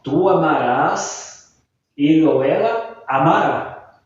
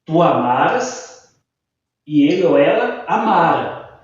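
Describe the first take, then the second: First: "amarás" and "amará" stressed on the final RÁS and RÁ; stress on the last syllable. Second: "amaras" and "amara" stressed on MA, the final syllable unstressed; stress on the second-to-last syllable. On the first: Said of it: "são oxítonas e a pronúncia também vai modificar". ("amarás" e "amará" com a tônica na última sílaba, oxítonas) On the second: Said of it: "como que ficaria a pronúncia?". ("amaras" e "amara" com a tônica no "ma", sem acento) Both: Shown as a demonstration.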